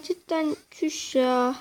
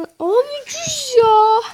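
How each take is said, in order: First: Said in the usual way. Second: High, drawn-out, slow shocked cry; stunned exclamation. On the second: Real, not acted. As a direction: stretch it out in disbelief.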